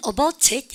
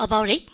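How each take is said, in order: First: ABOUT IT with both Ts fully sounded; British clear T. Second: Glue "about it" together; linked words. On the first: Teacher showing British habit, "about it" with every T. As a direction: say "about it" British style, crisp Ts. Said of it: "트 발음 다 하는 거". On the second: Teacher asking students to join sounds, "about it" linked. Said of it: "이렇게 발음을 갖다 붙여". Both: Shown as a demonstration.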